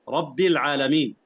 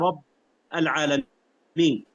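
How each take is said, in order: First: The doubled b is followed by an i vowel. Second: The b is held without any following vowel. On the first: The speaker calls it right. "وهي طبعا" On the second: The speaker calls it wrong. "تسكين الباء"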